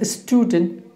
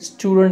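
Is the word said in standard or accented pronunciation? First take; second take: accented; standard. First: It is said with a mother-tongue-influenced pronunciation. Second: It is said with standard English pronunciation. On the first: The speaker calls it wrong. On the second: The speaker calls it right.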